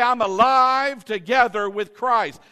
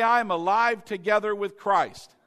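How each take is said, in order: First: Louder declaration. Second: Said in the usual way. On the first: Shown as a demonstration.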